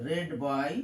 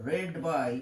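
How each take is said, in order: No difference in how they are said.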